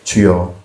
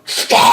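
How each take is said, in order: First: It is said in a soft, gentle way. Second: It is shouted in a harsh, combative way.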